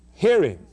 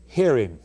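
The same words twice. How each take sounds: First: Hear him, louder and higher with a falling stress on hear; commanding emphasis. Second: Said in the usual way. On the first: Acted. Preacher repeating heaven's command, louder and higher. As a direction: bark the command Hear as an order.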